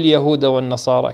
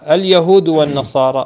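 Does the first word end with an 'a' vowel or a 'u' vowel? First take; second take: a vowel; u vowel. First: The first word ends with an 'a' vowel. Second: The first word ends with a 'u' vowel. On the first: "أو النصب" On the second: "إما بالضم"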